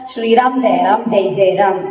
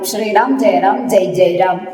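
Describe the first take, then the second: First: Said quickly with the final vowels clipped off. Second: The same.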